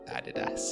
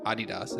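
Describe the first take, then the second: First: The last syllable has a hard 'ass' sound. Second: The last syllable does not sound like 'ass'. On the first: This is how the speaker's own group says it. The speaker calls it right. "It's uh, Adidas" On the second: This is how other speakers say it. The speaker calls it wrong. "we don't say Adidas or Adidas"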